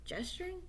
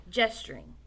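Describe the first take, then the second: First: Softer, rising, doubting the word; puzzled question. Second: Said in the usual way. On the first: Real, not acted. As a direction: query the odd word.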